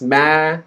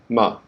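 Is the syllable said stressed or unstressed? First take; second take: stressed; unstressed. First: The syllable is long and stressed. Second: The syllable is short and unstressed. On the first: "now we have the stress"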